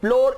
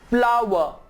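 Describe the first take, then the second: First: The word sounds like 'floor', one syllable. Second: The word sounds like 'flower', with 'ow'. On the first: The speaker calls it wrong. "फ्लोर is wrong" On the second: The speaker calls it right. "The correct pronunciation is फ्लावर"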